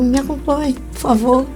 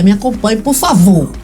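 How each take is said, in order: First: It is said warmly, like a friendly invitation. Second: It is said firmly, like an official order. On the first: The listener is being invited out for a drink. "Você não quer ir tomar um drink comigo, não?" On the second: The listener is being taken to the police station. "Numa briga, né? Vamos para a delegacia"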